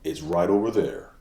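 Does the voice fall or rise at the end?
fall. The pitch falls at the end. The speaker seems sure of the answer. The speaker calls it right. "it sounds like you know what you're talking about"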